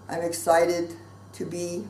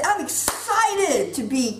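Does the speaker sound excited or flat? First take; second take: flat; excited. First: The voice sounds flat and unenthusiastic. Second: The voice sounds lively and enthusiastic. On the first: The claim of excitement is not believable. The speaker calls it wrong. "Of course you don't believe me" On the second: The claim of excitement is believable. The speaker calls it right. "Tone of voice"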